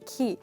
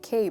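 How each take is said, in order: First: The syllable has the vowel of 'see'. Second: The syllable has the vowel of 'say'. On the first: The speaker calls it right. "but it's actually key" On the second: The speaker calls it wrong. "Many of us say K"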